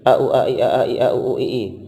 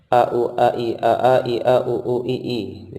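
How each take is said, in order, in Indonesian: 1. Urutan ini dibaca dengan tempo paling cepat. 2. Urutan ini dibaca dengan tempo cepat. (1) "Dipercepat lagi"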